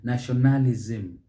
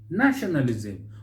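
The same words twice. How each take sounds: First: The stress falls on a later syllable. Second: The stress falls on the first syllable. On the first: The speaker calls it wrong. "You can see the stress is elsewhere, and that is mispronunciation" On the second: The speaker calls it right. "with the stress on that first syllable"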